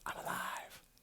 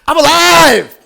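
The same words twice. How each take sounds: First: It is whispered softly. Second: It is said in full voice.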